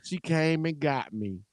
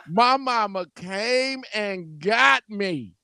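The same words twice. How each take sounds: First: Said in the usual way. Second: "my mama came and got me" drawn out slowly, word by word; emphatic reveal. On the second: Real, not acted. Emphatic reveal, then repeated plainly.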